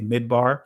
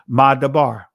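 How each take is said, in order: First: It is said with the Israeli pronunciation. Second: It is said with a non-Israeli pronunciation. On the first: "Some would say Midbar in the Israeli pronunciation of it" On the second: "But Madabar"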